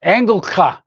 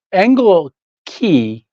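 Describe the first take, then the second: First: "Engelka" ending on an open "kah"; the German man's version of the family name; German pronunciation. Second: "Engel Key" said slowly as two separate words; father's slow "Engel Key" version of the name; dad's pronunciation. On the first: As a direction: give "Engelka" with a clear "ka" ending. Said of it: "the German guy, uh, says". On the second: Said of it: "he pronounced Engel Key". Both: Retold or imitated.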